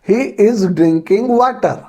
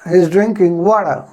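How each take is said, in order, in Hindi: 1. "water" में t पूरा और स्पष्ट है। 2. "water" में t नरम है, लगभग छूटा हुआ। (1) "इंडियन इंग्लिश में कैसे बोलते हैं?" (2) "ब्रिटिश इंग्लिश में किस प्रकार से बोला जाएगा?"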